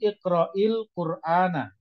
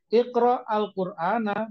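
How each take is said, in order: First: The words are joined by a linking 'i' sound. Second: The words are said separately without a linking vowel.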